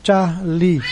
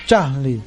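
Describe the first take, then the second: First: Charlie, letter name first; Charlie as written. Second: Charlie, radio style; radio pronunciation. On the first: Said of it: "Então, traduzindo". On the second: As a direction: land firmly on CHAR in Charlie. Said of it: "pronúncia mais forte". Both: Shown as a demonstration.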